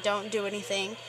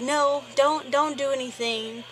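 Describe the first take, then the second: First: Said in the usual way. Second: Quick urgent stop-him plea, a bit louder. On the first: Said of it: "I just waved him off". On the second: Retold or imitated. Narrator pleading with her friend not to fight, urgent. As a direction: hold your friend back fast. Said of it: "And I was like".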